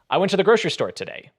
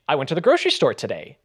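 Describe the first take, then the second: First: The voice falls at the end. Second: The voice rises at the end. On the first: "as opposed to" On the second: "it goes up vocally"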